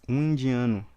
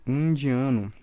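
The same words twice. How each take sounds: Both takes have the same delivery.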